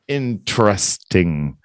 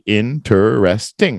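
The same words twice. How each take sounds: First: The word is shortened to three syllables. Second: The word is said with four full syllables. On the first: "They kind of skip the interest" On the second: "it's going to be interesting, right? Four syllables"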